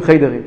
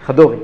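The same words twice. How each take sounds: First: חיידרים said as the wrong plural, khey-de-rim; the mistaken plural חיידרים; צורת רבים שגויה. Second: חדורים said as kha-do-rim, the right plural; the proper form חדורים; צורת רבים נכונה; correct plural. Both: Shown as a demonstration. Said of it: "אלה שלא יודעים אומרים".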